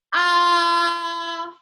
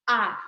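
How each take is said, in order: First: The pitch stays high and level. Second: The pitch dips low and comes up. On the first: "kalau nada pertama itu seperti orang yang membuka mulutnya besar" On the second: "kalau nada ketiga itu uh, seperti orang yang mengangguk"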